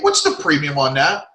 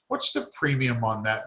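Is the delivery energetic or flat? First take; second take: energetic; flat. First: It is said with lively, high energy. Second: It is said with flat, low energy. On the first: The speaker calls it right. "It's almost in an energetic, stupid way" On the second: The speaker calls it wrong. "If you guys are voicing very, um"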